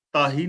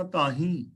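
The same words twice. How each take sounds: First: ਤਾਹੀਂ with an un-nasalised final "ee"; ਤਾਹੀਂ misread as "taa-hee"; wrong reading. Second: ਤਾਹੀਂ with a nasal final "heen"; ਤਾਹੀਂ as "taa-heen", ending through the nose; correct reading. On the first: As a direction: drop the nasal at the end of ਤਾਹੀਂ. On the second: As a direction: nasalise the last vowel of ਤਾਹੀਂ. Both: Shown as a demonstration. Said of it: "ਤਾਹੀਂ ਨਹੀਂ ਪੜਨਾ".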